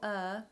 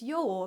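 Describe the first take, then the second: First: The word sounds like 'er'. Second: The word sounds like 'yore'. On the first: The speaker calls it wrong. "not Er, as I've been pronouncing it" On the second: The speaker calls it right. "It's Yore apparently"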